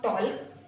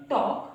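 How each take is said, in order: First: टॉल्क with the L sounded before K; wrong pronunciation. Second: टॉक with the L silent; correct pronunciation. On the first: Teacher warning learners off a mistake, L voiced in टॉल्क. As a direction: voice the silent L in टॉल्क. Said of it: "not टॉल्क". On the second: Teacher showing learners the right reading, L silent in टॉक. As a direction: go from vowel straight to K in टॉक. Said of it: "इसको पढ़ेंगे टॉक". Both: Shown as a demonstration.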